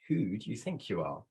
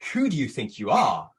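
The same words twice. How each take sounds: First: The question is said in a non-aggressive tone. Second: The question is said in an aggressive tone.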